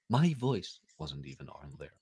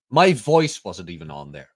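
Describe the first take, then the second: First: Quiet aside. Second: Said in the usual way. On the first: Shown as a demonstration. Repeating his own complaint to the cohost, now much softer. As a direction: repeat "My voice wasn't even on there." much softer, under the breath. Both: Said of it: "repeats it".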